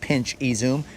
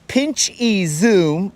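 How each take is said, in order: First: The words are said fast and run together. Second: The words are said slowly and separately.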